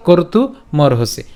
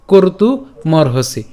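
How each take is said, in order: Both takes have the same delivery.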